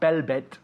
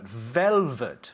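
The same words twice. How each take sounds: First: The word begins with a B-like sound. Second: The word begins with a clear V sound. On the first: The speaker calls it wrong. "not velvet" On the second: The speaker calls it right. "but velvet"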